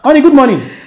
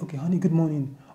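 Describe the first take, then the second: First: It is said in a loud voice. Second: It is said in a low, soft voice.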